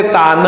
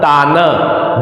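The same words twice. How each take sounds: First: तान with a full vowel after the final न; full ending. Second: तान dragged out slowly, ending on a bare न with no vowel after; halant ending. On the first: Teacher showing तान read as if it had no halant. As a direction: without halant, तान ends on a full syllable. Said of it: "अगर यहाँ पर हलंत नहीं होता तो इसको हम पढ़ते". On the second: Teacher showing the halant in तान, slow and lower. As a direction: stretch तान and cut the final न clean. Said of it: "जब हलंत है न के नीचे तो पढ़ेंगे तान". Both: Shown as a demonstration.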